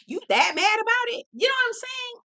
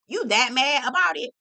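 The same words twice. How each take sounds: First: Pitched way up in disbelief; high incredulous repeat. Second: Said in the usual way. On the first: Retold or imitated. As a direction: ask it again much higher, mock shocked. Repeating question to the son.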